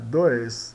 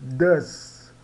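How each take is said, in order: First: The vowel sounds like 'oi'. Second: The vowel sounds like 'u'. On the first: The speaker calls it wrong. "não é dois" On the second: The speaker calls it right. "o OS dá us, então does ... é does"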